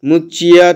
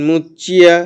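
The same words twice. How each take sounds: No difference in how they are said.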